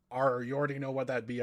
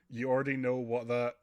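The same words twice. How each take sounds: First: Hearty pirate brogue. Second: Said in the usual way. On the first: Acted. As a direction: growl it like a sea pirate. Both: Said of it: "I'm doing a pirate voice".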